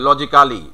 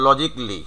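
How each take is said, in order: First: "logically" as loji-KAA-li; every written syllable of "logically" sounded; local "logically". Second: "logically" as LOJIK-lee; "logically" ending in "jik-li"; correct "logically". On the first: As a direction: say "logically" with a full "kaa" before "li". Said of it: "আমরা উচ্চারণ করি কিন্তু এভাবে". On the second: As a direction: say "logically" in three syllables without "ca". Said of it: "তোমার উচ্চারণটা হচ্ছে". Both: Shown as a demonstration.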